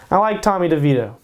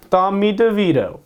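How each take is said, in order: First: Said in the usual way. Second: A half-hearted Italian-American accent on the name; lightly hammed-up Italian-American accent, a bit higher; terrible mock Italian-American accent. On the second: Shown as a demonstration. Picking a quarterback, tries a bad Italian-American accent. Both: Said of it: "That was a terrible accent".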